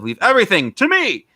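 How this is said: It is said in an aggressive tone.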